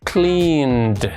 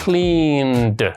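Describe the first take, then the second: The two takes are said the same way.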